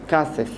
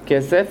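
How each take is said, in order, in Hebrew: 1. המילה נאמרת 'kasef', עם תנועה a. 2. המילה נאמרת 'kesef', עם תנועה e. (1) "אתנח בסוף פסוק, ... הופך להיות כסף" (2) "כסף הופך להיות"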